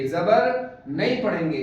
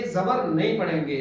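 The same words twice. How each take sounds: First: जबर नहीं पढ़ेंगे said slowly with weight on जबर; slow teacher's stress on जबर; slow emphatic repeat. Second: Said in the usual way. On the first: Shown as a demonstration. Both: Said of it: "teacher repeats the rule".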